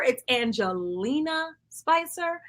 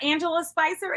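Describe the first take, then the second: First: Slow, careful "Angelina" with every syllable sounded; corrected name. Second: Host reading wrong name Angela Spicer, plain; "Angela" said as the wrong name, three syllables AN-je-la. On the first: Host correcting her name, slow and deliberate "Angelina" an-je-LEE-na. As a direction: stretch out "Angelina" slowly, an-je-LEE-na. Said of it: "it's not Angela Spicer, it's Angelina Spicer". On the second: "Angela" said as the mistaken version, AN-je-la Spicer. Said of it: "it's not Angela Spicer". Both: Shown as a demonstration.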